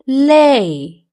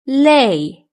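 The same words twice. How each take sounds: First: The word is said slowly and drawn out. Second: The word is said at normal speed.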